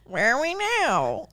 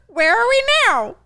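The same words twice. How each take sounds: First: It is said in a normal-pitched voice. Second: It is said in a very high voice.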